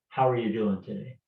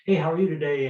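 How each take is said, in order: First: It sounds slow and sincere, really asking. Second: It sounds quick and casual, a routine greeting.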